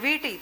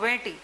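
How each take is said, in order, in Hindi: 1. पहला स्वर एक बंद 'ee' ध्वनि है। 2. पहला स्वर एक खुली 'e' ध्वनि है।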